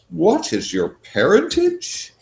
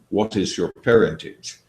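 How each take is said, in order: First: The question is asked in a mocking, self-ridiculing way. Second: The question is asked in a plain, straightforward way. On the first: She is making fun of herself for saying it. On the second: It is a sincere question.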